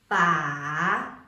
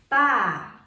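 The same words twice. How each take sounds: First: The pitch dips down and then rises. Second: The pitch drops sharply from high to low. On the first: "The third one is a falling and rising tone" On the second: "the fourth one is falling tones"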